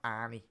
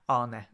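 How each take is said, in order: First: The name ends with an 'ee' sound. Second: The name ends without an 'ee' sound. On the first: The speaker calls it wrong. "it's not Arnie, as the Scousers might say" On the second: The speaker calls it right. "it's Arne in terms of when you pronounce Arne slow"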